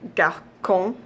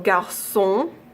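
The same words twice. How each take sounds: First: The c is pronounced as a k sound. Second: The c is pronounced as an s sound. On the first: The speaker calls it wrong. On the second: The speaker calls it right.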